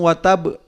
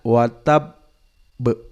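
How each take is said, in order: First: The b is said quickly without any hold. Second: The b is held briefly before release. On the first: The speaker calls it wrong. "Tidak langsung watabe. Karena kalau watabe berarti hanya satu huruf" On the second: The speaker calls it right. "Kita tahan sejenak"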